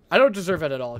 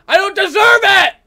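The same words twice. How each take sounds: First: Said in the usual way. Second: High, loud protest; aggrieved shout. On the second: Real, not acted. Gamer harassed while cleaning up, aggrieved shout. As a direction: shout it as the wronged party.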